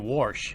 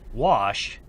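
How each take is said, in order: First: The word is said with an R sound. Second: The word is said without an R sound.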